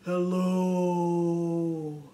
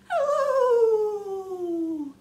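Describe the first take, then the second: First: It is said in a very low voice. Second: It is said in a very high voice.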